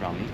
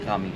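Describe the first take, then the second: First: The R is made with the tongue. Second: The R is made in the throat. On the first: The speaker calls it wrong. "not Rami" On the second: The speaker calls it right. "they say Rami"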